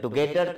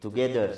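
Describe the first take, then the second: First: It is said with an Indian accent. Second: It is said with an Acehnese accent. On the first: "kalau orang India itu" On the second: "kalau orang Aceh ini ngomong bahasa Inggris itu sudah selesai"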